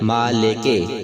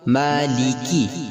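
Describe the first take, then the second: First: The final vowel sounds like a muddied 'eh'. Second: The final vowel sounds like a clear 'ee'. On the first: The speaker calls it wrong. "ये अंदाज दुरुस्त नहीं है, इसे मजहूल समझा जाता है" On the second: The speaker calls it right. "बल्कि हमने किस तरह पढ़ना है जेर की आवाज को"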